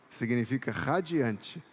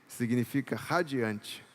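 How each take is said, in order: The two takes are said the same way.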